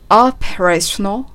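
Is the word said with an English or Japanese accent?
English. It is said with a native English pronunciation. "operational と発音されていますね"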